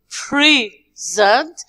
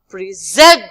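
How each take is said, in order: First: The stress is on the first syllable. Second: The stress is on the second syllable. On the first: It is a noun or an adjective. "if we stress the first part here, we say present" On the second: It is a verb. "But when we stress the second part"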